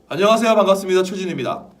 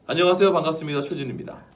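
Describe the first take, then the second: First: The greeting is spoken at a loud volume. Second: The greeting is spoken at a medium volume.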